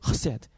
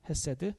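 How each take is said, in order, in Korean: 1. 첫 소리는 거친 목청 h입니다. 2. 첫 소리는 평범하고 부드러운 h입니다. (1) "독일어 하듯이" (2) "우리 한국말은 헤세드라는 단어를 쓰는데"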